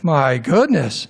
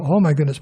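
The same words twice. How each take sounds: First: Slow, drawn-out "My goodness"; overwhelmed dismay. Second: Understated "Oh my goodness" at usual pace; mild dismay. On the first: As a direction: stretch it out as if stunned by the whole mess. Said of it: "you'd pass out". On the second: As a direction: react mildly to a small glimpse of mess. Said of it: "open it just a little bit". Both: Acted.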